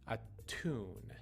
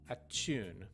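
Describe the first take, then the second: First: The middle consonant is a clear 't' sound. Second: The middle consonant sounds like 'ch'. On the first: The speaker calls it right. "you want to say tu" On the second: The speaker calls it wrong. "it feels more natural to say achu"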